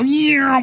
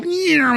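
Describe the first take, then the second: First: Imitated orb sound. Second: A much higher "Yeah" like things zooming off; imitated orb sound. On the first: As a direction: mimic the little orbs zipping away with "Yeah". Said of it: "and go". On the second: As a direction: squeal "Yeah" as the little orbs shoot away. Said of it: "all these little things go".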